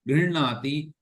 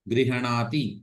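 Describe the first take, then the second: First: The h is half, with no vowel after it. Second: The h is said fully with a vowel after it. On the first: The speaker calls it right. "ह को आधा ही बोलना है" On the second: The speaker calls it wrong. "ऐसा नहीं"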